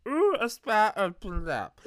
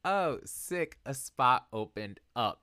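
First: High, loud, slurred drunk impression. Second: Said in the usual way. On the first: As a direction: play yourself very drunk, voice pitched way up. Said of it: "This is me very drunk. I should change my voice". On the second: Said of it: "I should change my voice".

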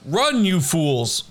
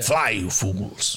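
First: Slow Gandalf line. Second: "Fly, you fools" low, slow and deep; deep slow Gandalf. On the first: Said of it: "from the film Lord of the Rings". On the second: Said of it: "I say it to people". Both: Retold or imitated.

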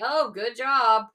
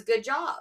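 First: Slow, dry sarcastic praise; mock sarcastic good job, a bit louder. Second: Said in the usual way. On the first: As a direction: say it like you mean the opposite. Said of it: "my husband said sarcastically". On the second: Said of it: "all my son heard was".

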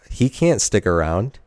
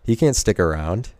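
The two takes are said the same way.

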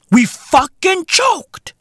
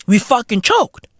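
First: Slow, high, emphatic admission; high and slow, hammering it home; drawn-out exasperation. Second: Said in the usual way. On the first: Real, not acted. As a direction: stretch each word out in disbelief.

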